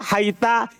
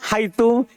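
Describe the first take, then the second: First: The word ends with an a vowel. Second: The word ends with an u vowel. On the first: "kadang fathah" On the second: "kadang di atas dhamma"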